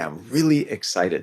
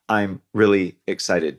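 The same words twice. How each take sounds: First: It is said with lively emphasis on key words. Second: It is said flatly, with little variation. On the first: The speaker calls it right. "So emphasize those words" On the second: The speaker calls it wrong. "So I would never say"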